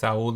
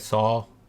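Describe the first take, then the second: First: The name is said with a Spanish pronunciation. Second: The name is said with an English pronunciation. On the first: "You say it Saul in Spanish" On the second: "you say it Saul in English"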